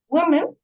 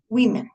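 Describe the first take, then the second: First: "Women" said as singular woman, WUU-men; singular pronunciation. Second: "women" said WIH-men; plural pronunciation. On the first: Teacher showing the changed O, singular "Women" as WUU-men. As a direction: make the O in "Women" a rounded oo. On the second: Teacher showing the changed O, plural "women" as WIH-men. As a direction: turn the O of "women" into short i. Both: Shown as a demonstration. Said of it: "lo que cambia en realidad es la O".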